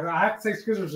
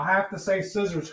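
First: "scissors" with a hard k after the s; scissors said as skizzers. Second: Said in the usual way. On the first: Retold or imitated. Quoting a teacher who said it so, "scissors" pronounced skizzers. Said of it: "That's what he would say". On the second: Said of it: "He said".

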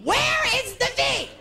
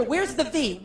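First: Much higher slow puzzled question; higher, slower mock confusion; baffled. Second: Said in the usual way. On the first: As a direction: ask it genuinely confused. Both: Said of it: "I said to my director".

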